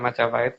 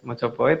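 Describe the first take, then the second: First: The first two vowels sound like 'a'. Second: The first two vowels sound like 'o'. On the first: The speaker calls it wrong. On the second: The speaker calls it right.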